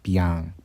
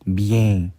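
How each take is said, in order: First: The nasal vowel sounds like 'ah'. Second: The nasal vowel sounds like 'eh'. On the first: The speaker calls it right. "에 소리가 안 나고, 아 소리가 나잖아" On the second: The speaker calls it wrong. "이 책에서 설명하는 대로 이걸 다 읽어버리면"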